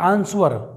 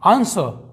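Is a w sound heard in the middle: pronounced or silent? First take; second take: pronounced; silent. First: A w sound follows the s. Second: No w sound follows the s. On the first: The speaker calls it wrong. "ना कि आंसवर" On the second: The speaker calls it right. "आंसर ना कि"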